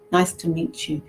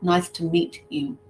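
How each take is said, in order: First: The t and y merge into a j sound. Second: The t and y are said separately. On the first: The speaker calls it right. "We've got the J sound" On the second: The speaker calls it wrong. "But it's not nice to meet you. It's never that one"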